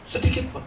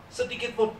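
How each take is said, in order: First: Breathy whispered repeat of Sedikit pun. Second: Much softer, trailing off; fading softly. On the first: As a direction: whisper it to let it land. (berbisik pelan) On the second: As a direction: let it sink in quietly. Repeats phrase, fading. (pelan dan melemah) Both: Real, not acted.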